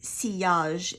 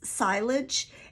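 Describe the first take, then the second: First: The word is said with a French pronunciation. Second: The word is said with an English pronunciation. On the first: The speaker calls it right. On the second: The speaker calls it wrong.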